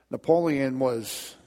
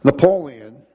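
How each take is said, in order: First: Said in the usual way. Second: Loud call. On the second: Acted. Announcing the story's hero.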